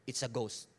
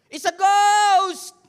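First: Said in the usual way. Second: Very loud, high, drawn-out scream of fear; terrified cry. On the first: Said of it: "they cried out". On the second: Acted. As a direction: shriek it like a frightened disciple.

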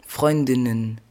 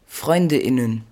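The two takes are said the same way.

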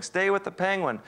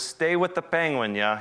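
First: "Stay with the penguin" called out much higher; mock yell. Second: Said in the usual way. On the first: Guide shouting from the boat to the photographer in the water, mock yell. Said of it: "He's yelling". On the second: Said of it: "the other advice he gave me was".

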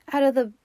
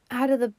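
No difference in how they are said.

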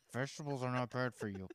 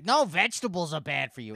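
First: Softer, controlled mock patience; retold calm correction. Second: Loud, higher mock contradiction; imitating stubborn ma'am. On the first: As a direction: imitate someone keeping calm in a diet argument. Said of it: "I start off so calm". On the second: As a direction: push back stubbornly as the ma'am. Imitates ma'am arguing about diet.

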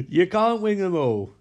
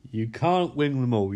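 First: Said through a laugh, a bit higher; laughing resignation. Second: Said in the usual way. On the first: Real, not acted. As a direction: chuckle the words out.

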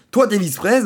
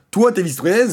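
The two takes are said the same way.

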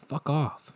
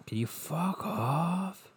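First: Higher, quick brush-off; mock dismissal. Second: Slow, high, drawn-out mock request; exaggerated dismissal. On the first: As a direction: toss it off as a short retort. Telling off an absent event's organisers. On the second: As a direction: stretch it out, pitch climbing on "off". Repeats the telling-off, exaggerated.

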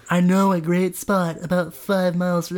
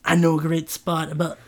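First: A new relaxed voice for Trent; Trent's new voice. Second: Said in the usual way. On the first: Shown as a demonstration. Trent chatting to Bambula, new relaxed voice. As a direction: try out a fresh easygoing Trent. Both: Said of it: "this is Trent's new voice".

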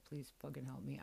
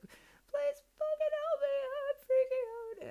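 First: Said in the usual way. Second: High, loud crying wail, slowed right down; tearful desperate plea. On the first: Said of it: "so I was like". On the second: Retold or imitated. Driving alone in tears, begging the universe for help, high sobbing wail. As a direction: sob it out, begging for help while falling apart. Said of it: "said it in tears".

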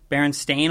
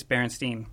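First: Berenstain with an "ay" ending; spelling shown by sound. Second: Berenstein with an "ee" ending; contrasting spelling by sound. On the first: Co-host reading the tape's front label, Berenstain said as "stain". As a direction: say Berenstain to rhyme its end with rain. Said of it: "and it's spelled". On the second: Co-host reading the tape's spine, Berenstein said as "steen". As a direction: say Berenstein to rhyme its end with seen. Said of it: "It's actually spelled". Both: Shown as a demonstration.

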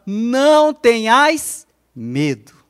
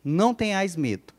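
First: "Não tenhais medo" drawn out slowly and louder; slow modelled phrase. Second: Said in the usual way. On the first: Shown as a demonstration. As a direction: lead them through "Não tenhais medo" word by word. ("Não tenhais medo" devagar e enfático) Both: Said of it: "Olha no zóio e fala".

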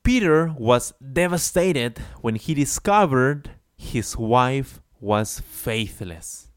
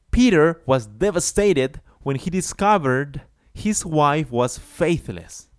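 First: Slow read, "wife was faithless" drawn out; slow model sentence; slow example read. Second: Higher and louder example read; emphatic model sentence; higher, louder reread. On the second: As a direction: project the sentence for class. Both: Shown as a demonstration. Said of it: "let's see an example".

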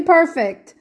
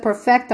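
First: Perfect said as the adjective, PER-fict, stress on the first syllable; "perfect" with a short -fict ending, stressed up front. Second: Perfect said as the verb, per-FECT, full -fect ending; "perfect" as an action word, per-FECT. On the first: Repeating the point to the study group: adjective PER-fict. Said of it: "I didn't say perfect". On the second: Repeating the point to the study group: verb per-FECT. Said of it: "I didn't say perfect. I said". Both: Shown as a demonstration.

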